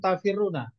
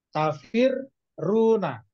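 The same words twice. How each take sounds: First: The word is said smoothly without a break. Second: The word has a short break on the r. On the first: The speaker calls it wrong. "jangan langsung tafirruna" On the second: The speaker calls it right. "dikasih jeda dulu... biar terasa sukunnya dulu"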